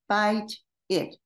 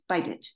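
First: The two words are said separately. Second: The final consonant links into the next vowel.

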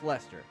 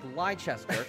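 First: The name is said in two syllables, like Lester. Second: The name is said in three syllables, following its spelling. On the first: This is how the name is actually pronounced. "it is pronounced Leicester" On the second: This is how the spelling suggests it is said. "They spelt it like Leicester"

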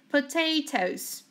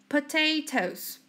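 No difference in how they are said.

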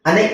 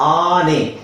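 First: The first vowel is short. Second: The first vowel is long. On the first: The speaker calls it wrong. "ಅನೆ ಅಂತ ಹೇಳಲ್ಲ" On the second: The speaker calls it right. "ಅದನ್ನ ನಾವು ದೀರ್ಘವಾಗಿ ಎಳಿತೀವಿ"

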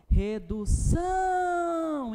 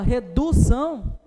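First: The stress is on the last syllable. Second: The stress is on the second syllable. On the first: The speaker calls it right. "é a sílaba que mais se estende" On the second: The speaker calls it wrong. "Também não"

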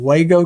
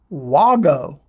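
First: The first vowel is not an 'aw' sound. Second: The first vowel is an 'aw' sound. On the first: The speaker calls it wrong. "I've been calling them Wago connector" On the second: The speaker calls it right. "it's Wago, like W-A-U-G-O"

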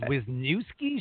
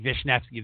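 First: The name begins with a W sound. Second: The name begins with a V sound. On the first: "So everybody goes" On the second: "There's not even a V or an F or nothing, but that's how you pronounce it"

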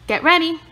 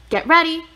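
The two takes are said the same way.

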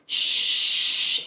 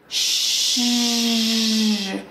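First: The hissing sound is voiceless, with no buzz. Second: The hissing sound is voiced, with a buzz. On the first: "placing our articulators like a shh sound" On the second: "and now activate your voice"

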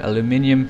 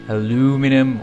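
First: The word is pronounced the English way. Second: The word is pronounced the American way. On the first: "or English" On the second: "for the Americans"

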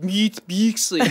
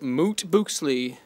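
First: The vowels are said as German umlaut sounds. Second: The vowels are plain, without umlaut sounds.

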